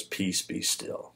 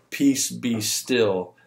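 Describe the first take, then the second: First: Soft, slow, nearly whispered command to the storm; calm warm command. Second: Slow, steady, unhurried words at normal volume; calm command. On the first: Jesus calming the storm from the boat, soft and slow. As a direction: hush the storm gently, barely a breath. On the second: Jesus stilling the storm for the disciples, slow and calm. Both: Retold or imitated. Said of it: "He just says it with a warm".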